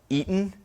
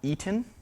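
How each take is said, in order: First: The middle T is replaced by a glottal stop. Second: The middle T is pronounced as a full T. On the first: This is the New England way of saying it. "it's why we say Eton" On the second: This is not the New England way of saying it. "not Eaton"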